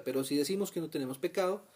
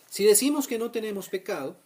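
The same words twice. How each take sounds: First: Said in the usual way. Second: Emphatic reading. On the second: Real, not acted.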